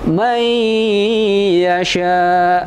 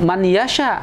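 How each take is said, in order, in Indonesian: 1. Bunyi n melebur ke dalam y setelahnya. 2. Bunyi n tetap dibunyikan sebelum y. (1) "dimasukkan nun tadi kemasuk ke huruf ya"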